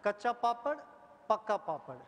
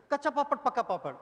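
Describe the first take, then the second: First: Said in the usual way. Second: Quick, punchy Kacha papad, pakka papad; fast twister demo. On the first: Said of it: "I'll help you one more time". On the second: Shown as a demonstration. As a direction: snap it out quickly. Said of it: "it should be told like this".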